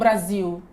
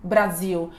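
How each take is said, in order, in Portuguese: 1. A palavra termina com um som de vogal parecido com U. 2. A palavra termina com um som de vogal parecido com U.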